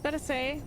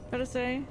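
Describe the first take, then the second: No difference in how they are said.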